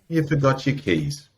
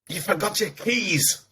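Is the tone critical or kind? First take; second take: kind; critical. First: The voice sounds gentle and kind. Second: The voice sounds harsh and critical. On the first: The speaker is being understanding toward themself. The speaker calls it right. "that might have been nicer" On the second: The speaker is scolding themself. The speaker calls it wrong. "it came out of my mouth with this critical tone"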